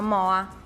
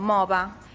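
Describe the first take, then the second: First: No consonant is heard in the middle. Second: A v sound is heard in the middle. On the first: This is how the word is said in Oristano. "tolgono direttamente la L, dicono moa" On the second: This is how the word is said in Terralba. "noi per dire mola diciamo mova"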